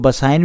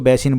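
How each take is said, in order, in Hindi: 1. यह नाम 'Basain' बोला जाता है। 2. यह नाम 'Besin' बोला जाता है। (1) "इसको बसाइन भी बोला जाता है" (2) "मैं इसको बेसिन बोल रहा हूँ"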